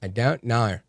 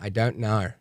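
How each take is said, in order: First: It is said in a put-on Australian accent. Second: It is said in a put-on Australian accent.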